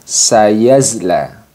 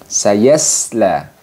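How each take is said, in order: First: The middle consonant is a voiced z. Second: The middle consonant is a plain, light s. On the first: "Kurang tepat ketika kita membaca sayasla ini dengan sayazla" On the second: "kurang tepat kalau kita membaca dengan sayasla ini dengan sayasla"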